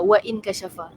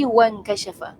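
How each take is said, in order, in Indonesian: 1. Bunyi glotal 'in' dilafalkan terpisah. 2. Bunyi glotal 'in' dihilangkan dan disambung. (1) "kita tak baca dia sebagai an kasyafa, wa an kasyafa, wa in kasyafa" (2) "Bila dia disambungkan, dia jadi wan kasyafa"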